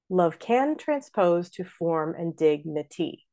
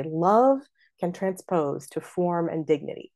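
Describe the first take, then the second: First: Slow beat with stress on "can"; love CAN transPOSE; iambic opening. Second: "Love" stressed and set apart; LOVE can transpose; opening trochee. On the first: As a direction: pass over "Love", lift "can". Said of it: "we have a choice there". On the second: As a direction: hit "Love", pause, let "can" fall away. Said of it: "make that a trochee". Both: Shown as a demonstration.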